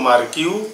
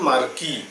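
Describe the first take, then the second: First: The word ends with a 'kyoo' sound. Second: The word ends with a plain 'kee' sound. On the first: "উচ্চারণটা কখনো কখনো মার্কিউ" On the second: "কেউ বা উচ্চারণ করেন মার্কি"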